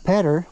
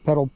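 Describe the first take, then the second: First: The word ends with an R-like sound. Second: The word ends with a clear L sound. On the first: The speaker calls it wrong. "not pedder, what's a pedder?" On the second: The speaker calls it right. "pedal, not pedder"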